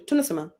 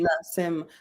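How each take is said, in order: First: The syllables are run together smoothly. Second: Each syllable is stressed separately. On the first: "we don't say tunasema" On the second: "tend to actually stress, ... syllables"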